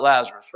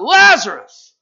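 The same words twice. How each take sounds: First: Said in the usual way. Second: A big loud call, pitched high; yelled out. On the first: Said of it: "you all know why he yelled out". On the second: Acted. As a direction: shout the name to wake the dead. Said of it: "he yelled out".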